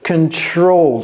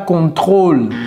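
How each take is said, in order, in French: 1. Le son r est produit à l'avant. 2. Le son r est produit dans la gorge. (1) "c'est ici" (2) "ne dites pas contrôle. Ce n'est pas dans la gorge"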